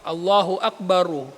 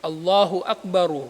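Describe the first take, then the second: No difference in how they are said.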